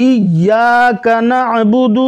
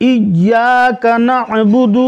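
No difference in how they are said.

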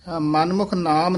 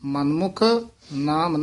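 First: The two words run together without a break. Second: There is a brief break after the first word. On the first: The speaker calls it wrong. "ਮਨਮੁਖ ਨਾਮ ਨਹੀਂ ਕਹਿ ਦੇਣਾ" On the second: The speaker calls it right. "ਮਨਮੁਖ ਪਦ ਤੇ ਯਮਕ ਲਾ ਕੇ ਬੋਲਣਾ ਹੈ"

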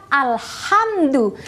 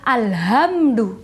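First: The 'h' is a tight sound from the throat. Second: The 'h' is a light, plain breath. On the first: The speaker calls it right. "kalau kita mengucapkan alhamdu" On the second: The speaker calls it wrong. "tidak boleh alhamdu"

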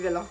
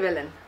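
First: The name is said with one sound dropped. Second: The name is said with all its sounds. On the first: This is how many people commonly say it. "beaucoup de gens ne prononcent pas le. Enfin, ils disent Vélène" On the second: This is the proper form of the name. "Normalement, c'est Vélène"

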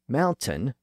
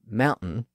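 First: The middle T is clearly pronounced. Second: The middle T becomes a glottal stop. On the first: The speaker calls it right. "by pronouncing the T sound in the middle" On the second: The speaker calls it wrong. "with that little stop in the middle"

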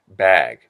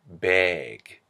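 First: The vowel is a plain open A sound. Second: The vowel is flattened toward an E sound.

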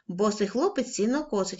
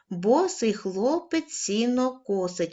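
First: It is read at a quicker pace. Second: It is read at a moderate pace. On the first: "кожного разу будемо пришвидшувати темп" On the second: "кожного разу будемо пришвидшувати темп"

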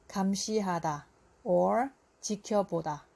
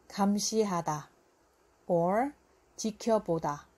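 Both takes have the same delivery.

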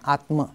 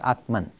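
First: The word ends in a vowel, without n. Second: The word ends with an n sound. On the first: This is the original Sanskrit form. "And Atma becomes Atman" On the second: This is the form used in English. "becomes Atman"

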